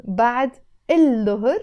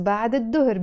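First: بعد الظهر said ba'd il-dohor, with the L; L sounded as written. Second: بعد الظهر said ba'd id-dohor, no L; sun-letter assimilation. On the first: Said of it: "again pronounced as". (keep an audible L before the D of الظهر) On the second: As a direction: double the D at the start of الظهر. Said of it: "because the da is a sun". (drop the L of الظهر into the D) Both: Shown as a demonstration.

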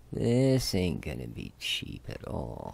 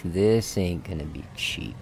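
First: Slow, lower rueful repeat; slowed-down, resigned emphasis. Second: Said in the usual way. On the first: Real, not acted. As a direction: draw it out, sinking lower with dread of the cost.

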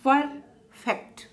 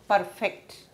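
First: "Perfect" split as per, pause, fect; syllable by syllable. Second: Said in the usual way. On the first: Shown as a demonstration. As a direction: break "Perfect" into two separate beats. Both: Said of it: "two syllable word".

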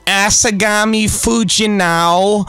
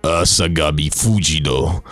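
First: "Asagami Fujino" said high, slow and drawn out with a rising end; mock the wrong way: a high, stretched "Asagami Fujino"; "Asagami Fujino" pitched up and slow, as the wrong example; wrong pronunciation. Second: "Asagami Fujino" said low and slow with weight; "Asagami Fujino" dropped low and deliberate, as the correct way; right pronunciation. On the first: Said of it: "it's not". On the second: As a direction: say "Asagami Fujino" deep, with balls in your voice. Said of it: "You gotta say it like this". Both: Shown as a demonstration.

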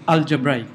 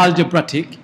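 First: "algebraic" said as al-juh-BRAY-ik; correct pronunciation. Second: "algebraic" said as al-juh-BRAT-ik; wrong pronunciation. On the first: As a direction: end "algebraic" with a long "bray" and no t before it. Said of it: "it is algebraic". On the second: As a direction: end "algebraic" in "-brattic", short a and added t. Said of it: "It is not algebraic". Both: Shown as a demonstration.

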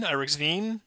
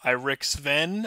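First: "Irix Veen" with long ee in "Veen"; retry "Irix Veen" as a question, long final vowel; second-guess pronunciation. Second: Slow "Irix Ven" with short e in "Ven"; first-guess pronunciation. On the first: Host retrying a supporter's name, unsure alternative pronunciation. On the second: Host guessing at a supporter's name, tentative first pronunciation. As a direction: sound out "Irix Ven", short vowel at the end. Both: Real, not acted. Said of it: "I'm gonna butcher everyone's name".

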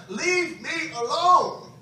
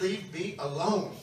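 First: Loud, drawn-out shout of defiance; fist-in-the-air holler, loud and slow; defiant cry. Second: Said in the usual way. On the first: Retold or imitated. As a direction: yell it slowly, every word stretched. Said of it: "crying, threw my". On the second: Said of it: "he ignored me when I said".

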